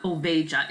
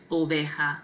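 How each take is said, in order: First: Oveja with an English J, "oh-VAY-juh"; wrong J sound. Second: Oveja with J as H, "oh-VAY-ha"; H sound for J. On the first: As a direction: mispronounce the J in "oveja" as in "jam". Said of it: "so it's not oveja". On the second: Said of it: "J makes an H sound". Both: Shown as a demonstration.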